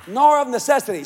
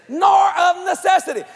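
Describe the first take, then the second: First: Said in the usual way. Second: Nor of necessity called out high and loud, punching nor; proclaimed loud. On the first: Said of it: "Not grudgingly". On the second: Shown as a demonstration. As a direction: ring out nor of necessity like a preacher hitting the verse. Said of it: "Listen to this".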